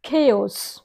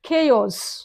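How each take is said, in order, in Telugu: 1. ఇది రెండు అక్షరాలుగా పలుకుతారు, 'kay-os'. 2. ఇది రెండు అక్షరాలుగా పలుకుతారు, 'kay-os'.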